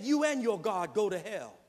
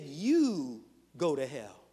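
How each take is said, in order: First: Said in the usual way. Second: "You go to hell" spaced out, each word landing; slow down and let "You" carry the blame; slow, weighted retelling. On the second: Retold or imitated. Dean correcting the student, slow and pointed. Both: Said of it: "you didn't hear what she said".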